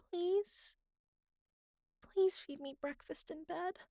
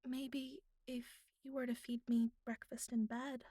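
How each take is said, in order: First: Higher, sweetly begging, with Please lifted and a rise at the end; pleading. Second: A coy, half-teasing ask with a light lift on me; coy request. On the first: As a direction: give in and beg cutely for breakfast. Gives in and repeats the request. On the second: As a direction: slip it in playfully, like a hint. Coy request in bed scene. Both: Acted.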